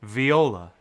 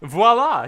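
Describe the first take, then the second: First: "Viola" said as vee-OH-la; mispronounced voila. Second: "Voila" said as vwah-LAH; corrected voila. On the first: Player misreads the French word, "Viola" as vee-OH-la. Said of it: "Why'd you say Viola?". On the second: Player corrects the misread word, "Voila" as vwah-LAH. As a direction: say "Voila" the French way, two syllables, vwah-LAH. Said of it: "just a little bit of French that everybody should know". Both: Real, not acted.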